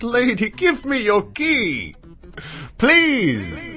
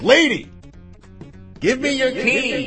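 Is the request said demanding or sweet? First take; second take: sweet; demanding. First: It is said in a sweet tone. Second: It is said in a demanding tone.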